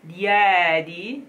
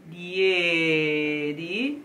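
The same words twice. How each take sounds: First: Said in the usual way. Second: "diedi" with a covered, darker closed E; "diedi" sung-style covered E. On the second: Shown as a demonstration. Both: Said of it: "close in the sense of copertura".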